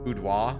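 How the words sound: It is said with a French pronunciation. "in the French"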